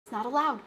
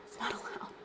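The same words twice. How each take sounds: First: Said in the usual way. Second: Breathy whisper of the same line; whispered aside. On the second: Shown as a demonstration. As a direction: drop it to a whisper, half to herself. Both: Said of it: "repeats line, then whispers it".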